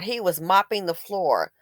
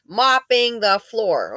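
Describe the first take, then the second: First: Said in the usual way. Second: "Mopping" drawn out slowly, falling; slow, leaning hard on "Mopping"; slow stress on mopping. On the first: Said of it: "Mopping the floor, okay?". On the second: Shown as a demonstration.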